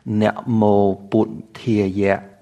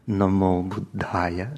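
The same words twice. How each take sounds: First: It is said in the Khmer Pali pronunciation. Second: It is said in a non-Khmer Pali pronunciation. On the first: "we'll add the Khmer pronunciation" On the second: "instead of namo Buddhaya"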